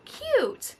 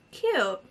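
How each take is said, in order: First: Squeaky cute. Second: Said in the usual way. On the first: Real, not acted.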